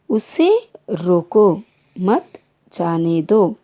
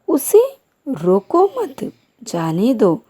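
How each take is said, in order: First: There is a pause after रोको. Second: There is a pause after मत.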